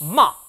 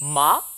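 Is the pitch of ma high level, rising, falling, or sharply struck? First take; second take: sharply struck; rising. First: The first sound is struck sharply. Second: The pitch curls slightly upward. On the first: "사성은요. 첫 음을 탁 쳐주는 느낌" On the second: "이성은요. 살짝 감아쳐 올라가는 느낌"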